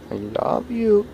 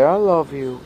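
First: Higher coaxing demo. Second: Sing-song model phrase for the cat; coaxing demo. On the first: Owner coaxing cat to repeat, high cooing. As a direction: coo it up high to coax the cat. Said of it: "Come on". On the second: Owner modelling words for cat, lilting. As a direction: coax the cat with a lilting I love you. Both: Shown as a demonstration.

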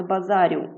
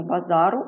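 First: "базарю" with a softened "р"; wrong soft r. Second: "базару" with a hard "р". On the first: Teacher shows the mistaken form "базарю", soft r. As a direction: palatal "рю" ending on "базарю". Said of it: "а не". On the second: Teacher shows the correct form "базару", hard r. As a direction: keep "базару" unsoftened, plain "ру" ending. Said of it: "це тверда група". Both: Shown as a demonstration.

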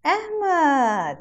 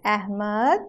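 First: High "Ahmed" gliding down; Ahmed, long falling model for children; Ahmed drawn out, falling. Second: Put-on Ahmed, rising for children to repeat; Ahmed with rising tune. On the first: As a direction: stretch the end of Ahmed downward. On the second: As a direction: end Ahmed on a rise. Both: Shown as a demonstration. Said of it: "Now say it with me".

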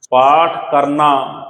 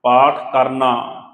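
First: ਪਾਠ ਕਰਨਾ said very slowly and louder, ਪਾਠ hit hard; emphatic stress. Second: ਪਾਠ ਕਰਨਾ slowed down, ਪਾਠ leaned on; slow emphasis. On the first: Preacher stressing ਪਾਠ ਕਰਨਾ to the congregation, slow and heavy. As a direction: spell out ਪਾਠ ਕਰਨਾ word by word with weight on ਪਾਠ. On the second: Preacher repeating ਪਾਠ ਕਰਨਾ for the listeners, slow and deliberate. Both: Shown as a demonstration. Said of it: "ਦੁਬਾਰੇ ਫਿਰ ਧਿਆਨ ਨਾਲ ਸਮਝੋ ਗੱਲ".

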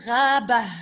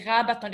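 First: Gha, Ba with long "ghaa" and a breathed h at the end; silent ending. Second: Gha, Ba, Ton run together with the ending sounded; full ending pronounced. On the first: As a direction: say Gha, Ba with no "ton", just a puff of h. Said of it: "make it this silent". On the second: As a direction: say Gha, Ba, Ton as one word ending in a clear "ton". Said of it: "if you want to pronounce it". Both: Shown as a demonstration.

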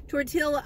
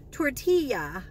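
First: "Tortilla." said with a hard l, tor-till-uh. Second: "tortilla" ending in a y sound, tor-tee-yuh. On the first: Admitting to viewers she still says "Tortilla." with an l. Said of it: "I'm still saying tortilla". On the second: Testing the proper "tortilla" for viewers, tor-tee-ya. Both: Shown as a demonstration.

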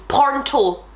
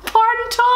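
First: Said in the usual way. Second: High, loud, laughing "Pronto". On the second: Shown as a demonstration. Host repeats the word "Pronto" while laughing. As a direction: burst out "Pronto" through a laugh.

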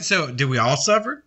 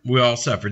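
First: Rising question to the congregation; asking the congregation. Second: Falling answer with a stress on "We"; answering firmly. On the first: Preacher asks the flock, question tune. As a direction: lift the end into a real question. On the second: Preacher answers his own question, falling tune. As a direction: land "We all suffer" flat and certain. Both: Shown as a demonstration.

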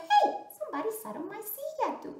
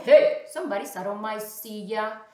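First: High, fast mama bear; quick, high-pitched indignant mother bear. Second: Loud, indignant papa bear. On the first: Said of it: "also mama said". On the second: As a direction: boom it out as the big father bear. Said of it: "also papa said". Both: Acted.

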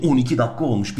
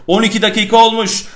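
First: Said in the usual way. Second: Louder, higher, energized repeat; excited. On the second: Real, not acted. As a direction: repeat it with a sudden burst of energy.

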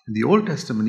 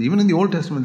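First: Said in the usual way. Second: "even" lifted and pushed a little higher; restating with emphasis on "even"; stress on even. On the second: Shown as a demonstration. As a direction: lean on "even" to correct yourself.

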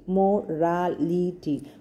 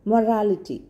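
First: "Morality" drawn out in four separate beats; slow syllables. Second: Said in the usual way. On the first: Shown as a demonstration. Teacher showing how to hear syllables, "Morality" slowly syllable by syllable. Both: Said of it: "When you say slowly".

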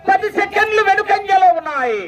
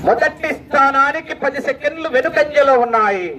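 First: High sustained call, falling at the end; high announcer call. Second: Ordinary-pitched announcement with a long falling end; measured announcer repeat. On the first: Announcer telling crowd the time gap, high ringing call. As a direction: call it out high, drop on the last word. Result called high, then repeated lower. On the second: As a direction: restate it evenly, letting the ending sink. Same result repeated in lower pitch. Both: Real, not acted.

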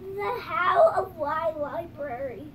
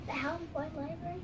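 First: Slow careful reading. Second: Fast, quiet, rising question; quick puzzled question. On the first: Shown as a demonstration. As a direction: read the title out slowly. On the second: Real, not acted. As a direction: rush through it, puzzled.

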